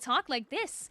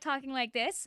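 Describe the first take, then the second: First: It is said in an accentuated, higher character voice. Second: It is said in a plain, natural speaking voice. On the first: "I have to accentuate" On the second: "instead of talking like this"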